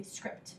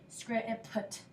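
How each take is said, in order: First: Said in the usual way. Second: "script" chopped apart, with separate puh and tuh at the end; broken-up word. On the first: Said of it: "We say script". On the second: Shown as a demonstration. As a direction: sound out the end of "script" piece by piece. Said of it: "we don't say script".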